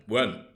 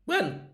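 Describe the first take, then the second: First: Low, controlled question; voice brought down. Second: High, squeaky mock-indignant question; voice going up. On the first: Acted. Guest obeying the host, voice brought down. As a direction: ask it low, holding the voice down. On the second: Guest demanding when sofa frees up, voice going up. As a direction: let the word shoot right up. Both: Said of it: "When your voice stops going up".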